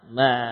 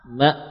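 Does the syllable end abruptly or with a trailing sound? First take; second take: trailing; abrupt. First: The final stop drags with a trailing sound. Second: The final stop cuts off abruptly with no tail. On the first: The speaker calls it wrong. "terseret misalkan ma ma" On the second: The speaker calls it right. "Tidak ada buntut"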